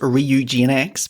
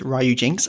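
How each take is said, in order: First: The name is said the official way. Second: The name is said the common, informal way. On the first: This is the name's official form, which hardly anyone uses. "Officially, it's" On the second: This is how people usually say the name. "my uh, personal pr- pronunciation is"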